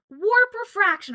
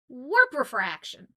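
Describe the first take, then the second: First: The emphasis falls in the standard place. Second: The emphasis falls in a Cajun-influenced place. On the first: The speaker calls it right. "instead of like warp refraction" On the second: The speaker calls it wrong. "that's the the Cajun in me"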